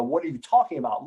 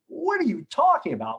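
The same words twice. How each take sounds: First: Said in the usual way. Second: High, baffled what are you talking about; incredulous. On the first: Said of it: "giving him the ... look". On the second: Retold or imitated. To the partner who blamed him, stunned and incredulous. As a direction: react as if he can't believe what he heard. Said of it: "But I didn't say this".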